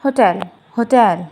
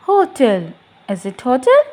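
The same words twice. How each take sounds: First: Hotel as ho-TEL, second syllable stressed; hotel with short HO and strong TEL; correct pronunciation. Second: Hotel stressed up front, HO-tel; hotel mispronounced HO-tl; wrong pronunciation. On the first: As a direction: land slowly on TEL in hotel. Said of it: "The word is". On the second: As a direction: say hotel with the weight on HO. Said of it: "No, it's not". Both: Shown as a demonstration.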